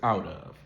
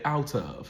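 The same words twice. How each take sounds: First: The T is a quick flap like a D. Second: The T is a crisp, clearly released stop. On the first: "she does use a flap T" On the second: "she doesn't say"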